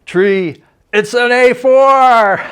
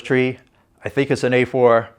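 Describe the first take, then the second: First: Much higher, louder, slow triumphant cry; stretched-out excited call, voice jumping way up; excited shout. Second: Said in the usual way. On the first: Retold or imitated. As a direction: yell it out, thrilled at the news.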